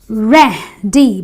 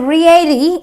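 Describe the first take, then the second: First: The first vowel is a short 'eh'. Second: The first vowel is not a short 'eh'. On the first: The speaker calls it right. "I say ready because the E A gives me the S sound" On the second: The speaker calls it wrong. "So I don't say ready"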